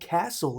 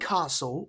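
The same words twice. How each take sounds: First: It is said in an American accent. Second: It is said in a non-American accent.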